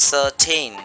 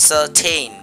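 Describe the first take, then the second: No difference in how they are said.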